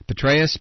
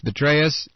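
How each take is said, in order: First: Said in the usual way. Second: Betraeus with a B instead of a P at the start; pun on the name. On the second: Shown as a demonstration. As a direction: say Betraeus, swapping the first P for a B. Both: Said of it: "used a play on Petraeus' name".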